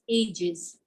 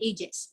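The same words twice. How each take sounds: First: The word ends with a buzzing z sound. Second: The word ends with a hissing s sound. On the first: The speaker calls it right. "it's ages" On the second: The speaker calls it wrong. "We don't say ages"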